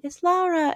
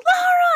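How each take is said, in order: First: Put-on high-pitched little girl voice, contained; imitated child announcement. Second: Very high, loud squeal of a name; imitated excited kids. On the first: Blind girl announcing to other kids, contained child voice. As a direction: lightly imitate a small girl announcing a discovery. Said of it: "announces to the other kids so quietly". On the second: Kids all freaking out on hearing, imitated squeal. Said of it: "they're, like, freaking out".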